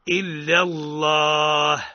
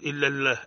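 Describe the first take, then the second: First: The L in Allah is heavy and velarized. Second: The L in Allah is light and thin. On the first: The speaker calls it right. "يقرأ هكذا إلا الله بالتفخيم" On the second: The speaker calls it wrong. "لا نقول"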